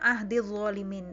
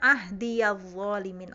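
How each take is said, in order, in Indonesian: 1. Vokal ya langsung menyambung ke kata berikutnya. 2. Ya itu memakai vokal a pendek. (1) "Kalau di uh, hafaz itu bacanya" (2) "di kolun bacanya"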